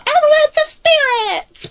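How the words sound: It is said in a tiny, small voice.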